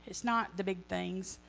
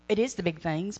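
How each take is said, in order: First: Slow, leaning hard on "not"; a slow, heavy "not"; stress on not. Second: "is" lifted and pressed, rising; a firm, rising "is"; stress on is. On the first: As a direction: drag it out and punch "not". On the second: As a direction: correct yourself by hitting "is". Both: Shown as a demonstration.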